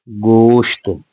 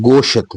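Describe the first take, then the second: First: गोश्त with sh and t joined in one closing cluster; correct pronunciation. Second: गोशत with an extra vowel between sh and t; wrong pronunciation. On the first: Teacher to pupils giving the right reading, गोश्त as one syllable. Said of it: "तो ये गोशत नहीं है". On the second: Teacher to pupils showing the common mistake, गोशत with an added vowel. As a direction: say गोशत the way children wrongly read it. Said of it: "कई बच्चे इसे पढ़ते हैं गोशत". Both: Shown as a demonstration.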